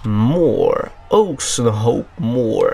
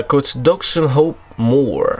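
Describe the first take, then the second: First: Very slow, lower, hammed-up English accent on "Oxenhope Moor"; mock posh English pronunciation of "Oxenhope Moor", each syllable stretched; best English accent. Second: Slow, careful mock English accent on "Oxenhope Moor"; first stab at an English accent, saying "Oxenhope Moor" slowly; French speaker hamming up an English accent on "Oxenhope Moor"; English accent attempt. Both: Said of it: "Je sors mon meilleur accent anglais".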